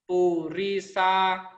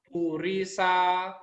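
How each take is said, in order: The two takes are said the same way.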